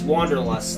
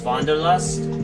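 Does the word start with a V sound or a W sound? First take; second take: W sound; V sound. First: The word begins with an English W sound. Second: The word begins with a V sound. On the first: The speaker calls it wrong. "You don't say it as Wanderlust" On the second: The speaker calls it right. "the W in German sounds more like a V than a W"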